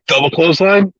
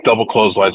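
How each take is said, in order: First: "Double clothesline" asked high, tentative offer; retold suggestion. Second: Said in the usual way. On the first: Retold proposal, then partner agrees.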